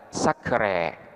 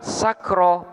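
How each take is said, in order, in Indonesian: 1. Vokal panjang di akhir condong ke 'e'. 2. Vokal panjang di akhir adalah 'a' terbuka biasa. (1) "boleh pula dibaca dengan sakre" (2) "Sehingga sakro"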